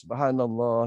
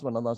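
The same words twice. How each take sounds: First: It is said slowly and deliberately. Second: It is said quickly and hurriedly.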